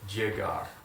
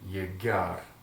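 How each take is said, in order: First: The double L sounds like an English j. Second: The double L sounds like an English y. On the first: "depending on where you come from in Spain, you may want to say it this way. ... J" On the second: "stick to the double L sound as ye"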